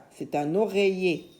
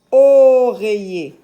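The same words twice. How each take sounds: First: Said in the usual way. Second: Oreiller slow, very loud long O; sounded-out word. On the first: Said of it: "Ça s'appelle oreiller". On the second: Shown as a demonstration. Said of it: "la syllabe où tu entends o". (oreiller avec un O long et fort)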